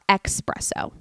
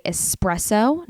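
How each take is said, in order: First: Espresso said slowly as "EX-presso"; mispronounced espresso. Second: Said in the usual way. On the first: Shown as a demonstration. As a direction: put a hard X into espresso. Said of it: "not espresso". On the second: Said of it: "I did just say espresso".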